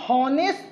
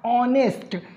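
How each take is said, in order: First: The word begins with an audible h sound. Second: The word begins with a vowel, h silent. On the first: "लिखते तो हम लोग इसको हॉनेस्ट हैं" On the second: "एच आपने silent करके पढ़ा है"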